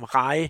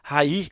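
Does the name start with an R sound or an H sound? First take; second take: R sound; H sound. First: The first sound is a plain R. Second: The first sound is a Brazilian H-like R.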